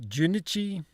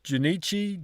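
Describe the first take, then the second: First: Junichi stressed on first syllable, JOO-nih-chee; higher, softer questioning Junichi, front-stressed; alternative stress. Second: Junichi stressed on NEE, rising; higher, softer questioning joo-NEE-chee for Junichi; testing the stress. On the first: Learner asking where's the stress, Junichi stressed up front. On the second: Learner asking where's the stress, Junichi with middle stressed. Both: Shown as a demonstration. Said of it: "where's the stress?".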